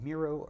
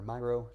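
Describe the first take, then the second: First: Miro said as MEE-roh; unsure pronunciation. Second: Miro said as MY-roh; alternative pronunciation. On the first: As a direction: say Miro with a first syllable like "me". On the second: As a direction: say Miro with a first syllable like "my". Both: Shown as a demonstration. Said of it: "not sure on the pronunciation".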